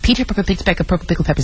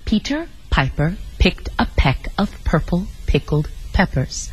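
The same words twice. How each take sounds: First: It is said extremely fast. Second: It is said very slowly.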